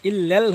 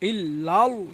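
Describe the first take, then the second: First: The L is thin with a light vowel. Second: The L is heavy with a full vowel. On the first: The speaker calls it wrong. "ইল লেল হবে না" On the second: The speaker calls it right. "ইল লাল পুর হবে"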